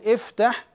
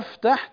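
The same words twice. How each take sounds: First: The word begins with an i vowel. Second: The word begins with an a vowel. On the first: It is a command: open. The speaker calls it right. "نبدأ بالكسر" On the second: It becomes present tense: I open. The speaker calls it wrong. "لو فتحنا الهمزة وقلنا افتح تغيرت صيغة الفعل"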